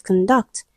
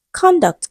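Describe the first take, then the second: First: "conduct" as con-DUCT, rising; stress on second syllable. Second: "Conduct" as CON-duct, high then falling; stress on first syllable. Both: Shown as a demonstration. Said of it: "We have so many examples".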